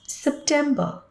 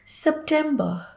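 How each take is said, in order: First: The final R sound is dropped. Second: The final R sound is dropped.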